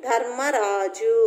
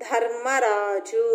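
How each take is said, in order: Both takes have the same delivery.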